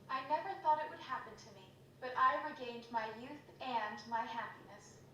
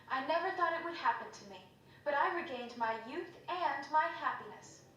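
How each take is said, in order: First: The line is delivered in a hesitant, unsure way. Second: The line is delivered in a firm, confident way. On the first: "She doesn't sound very confident"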